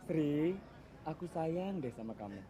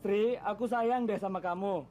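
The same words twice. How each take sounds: First: It is said softly. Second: It is said loudly.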